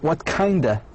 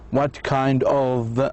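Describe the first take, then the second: First: 'Kind of' is reduced to 'kinda'. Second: 'Kind of' is said as two full words. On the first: "He said, what kinda?" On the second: "He didn't say, what kind of"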